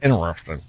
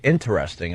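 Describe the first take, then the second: First: The T is dropped, Long Island style. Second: The T is clearly pronounced, standard style.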